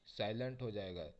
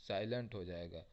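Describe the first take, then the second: No difference in how they are said.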